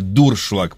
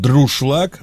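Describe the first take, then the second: First: The word begins with the sounds 'dur'. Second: The word begins with the sounds 'dru'. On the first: This is the correct form. The speaker calls it right. "но на самом деле дуршлаг, правильно" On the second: This is the childhood habit. The speaker calls it wrong. "я с детства говорил всегда то же самое"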